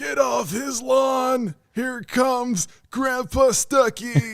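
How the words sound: It is said in an old man voice.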